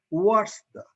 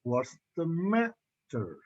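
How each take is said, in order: First: "what's the" pitched high from the first word; wrong high start. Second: "matter" slowed, up on the first syllable then falling; slow "What's the matter?", falling at the end; falling WH-question tune. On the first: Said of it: "it is not". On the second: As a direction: lift the start of "matter", then let it fall. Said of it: "Ma goes after". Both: Shown as a demonstration.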